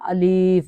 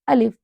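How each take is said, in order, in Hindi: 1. स्वर को लंबा खींचा जाता है। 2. स्वर को छोटा रखा जाता है। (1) "ज़्यादा मकदार भी लंबी नहीं करनी, ऐसे नहीं करना" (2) "अलिफ ऐसे करके"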